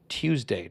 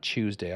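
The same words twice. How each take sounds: First: The word begins with a clear 't' sound. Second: The word begins with a 'ch' sound. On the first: The speaker calls it right. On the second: The speaker calls it wrong. "not Tuesday. I don't know why I pronounced Tuesday C H O O S E D A Y sometimes"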